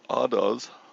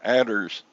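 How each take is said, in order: First: The r at the end is dropped. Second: The r at the end is clearly pronounced. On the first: This is how it is said over there. "Over there, they're addas" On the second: This is how it is said in Texas. "In Texas, we call them adders"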